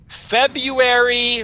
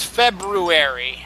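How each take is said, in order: First: February said slowly as FEB-yoo-ery; February without first R. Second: February said slowly as FEB-roo-ery. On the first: Host contrasting two versions, slow FEB-yoo-ery for February. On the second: Host contrasting two versions, slow FEB-roo-ery for February. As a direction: sound the first R in February. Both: Shown as a demonstration. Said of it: "there is an R in it".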